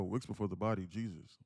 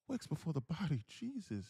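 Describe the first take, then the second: First: Said in the usual way. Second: High put-on voice for a viewer's comment; switched-up comment voice. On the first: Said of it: "but if I go". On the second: Shown as a demonstration. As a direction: pitch it up to mark someone else's words. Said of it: "I gotta switch up the voice".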